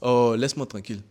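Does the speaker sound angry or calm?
calm. It is said in a calm, unbothered tone. The listener is a mild nuisance, nothing serious. "je suis pas fâché"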